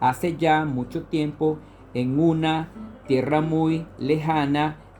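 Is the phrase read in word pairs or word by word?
word pairs. The words are read grouped two at a time. "Vamos a hacerlo de dos en dos"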